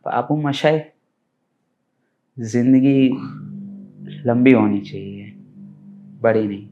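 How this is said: The line is delivered in a moved, emotional way. "Emotional"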